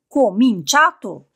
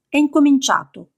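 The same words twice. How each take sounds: First: Cominciato drawn out slowly and hit hard; slower, weightier echo of the word; slow emphatic repeat. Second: Theatrical announcement. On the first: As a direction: lean into Cominciato, stretching it out. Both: Acted. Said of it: "con un gesto teatrale".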